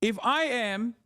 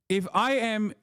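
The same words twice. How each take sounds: The two takes are said the same way.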